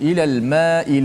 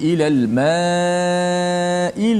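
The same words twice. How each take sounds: First: The vowel before the hamzah is held short. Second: The vowel before the hamzah is held long. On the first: The speaker calls it wrong. "macam mak tabi'i baca tak boleh" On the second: The speaker calls it right. "mesti baca empat ataupun lima harakat"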